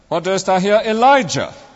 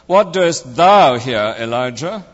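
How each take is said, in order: First: The stress is on the word Elijah. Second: The stress is on the word thou. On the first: "emphasizing each word in turn" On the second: "emphasizing each word in turn"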